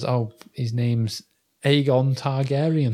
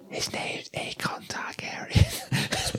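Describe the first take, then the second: First: It is said in a normal voice. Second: It is said in a whisper.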